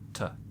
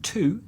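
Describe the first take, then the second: First: The word is said with a weak, reduced vowel. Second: The word is said with its full vowel. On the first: "that becomes to" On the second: "with to"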